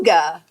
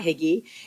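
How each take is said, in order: First: The word sounds like 'hooga'. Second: The word sounds like 'higgy'. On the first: The speaker calls it right. "It is Hygge" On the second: The speaker calls it wrong. "not Higgy"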